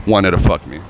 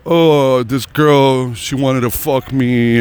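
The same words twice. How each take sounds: First: Said in the usual way. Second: Drawn-out, higher mocking brag; mock bragging cable guy. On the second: Cable guys boast of their conquests, mocking drawn-out brag. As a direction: stretch it out like a boastful guy's tale.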